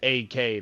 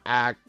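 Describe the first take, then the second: First: The name is said as two letters. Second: The name is said as one word. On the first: The speaker calls it right. "It's A K. Like he he doesn't uh, split the name up like that" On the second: The speaker calls it wrong. "it's not act"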